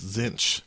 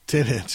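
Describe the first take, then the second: First: The name sounds like 'zinch'. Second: The name sounds like 'ten inch'. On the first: The speaker calls it right. "it's Zinch" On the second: The speaker calls it wrong. "it's not 10-inch"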